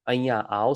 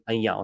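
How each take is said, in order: First: It is said as two full, separate words. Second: It is run together into one shorter word. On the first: "that's the informal version" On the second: "It's actually much shorter than anya au"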